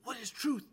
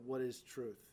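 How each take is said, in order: First: The question sounds eager and genuinely curious. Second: The question sounds dismissive and mocking. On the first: He sincerely wants to hear the answer. "If he would have said it enthusiastically" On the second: He doubts that truth can ever be known. "Or did he say sarcastically"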